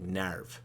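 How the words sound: It is said with a Japanese-style open vowel. "how the Japanese would pronounce it"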